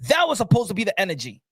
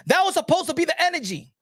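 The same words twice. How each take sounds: First: Said in the usual way. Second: That was supposed to be the energy, pitched much higher and pressed hard; emphatic repeat. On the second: Shown as a demonstration. Vlogger repeating his point to boxing fans, emphatic and higher. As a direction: hammer the point home the second time.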